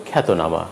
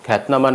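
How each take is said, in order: First: খ্যাতনামা with "o" after t; খ্যাতনামা in four syllables; linking vowel sounded. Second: খ্যাতনামা with t running into n; no linking vowel. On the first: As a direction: say খ্যাতনামা as "khaeto-nama". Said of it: "হবে". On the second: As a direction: say খ্যাতনামা as "khaet-nama". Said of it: "নয়". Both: Shown as a demonstration.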